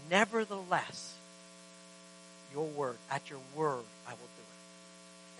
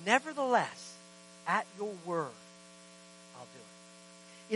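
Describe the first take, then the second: First: Slow, falling to a near whisper on "I will do it"; hushed surrender. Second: Quiet surrender. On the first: Believers surrendering to the Lord, slow near whisper. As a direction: let it fade into breathless yielding. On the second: Peter yielding to Jesus, quiet and slow. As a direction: drop softly and slow down on "I'll do it". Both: Retold or imitated.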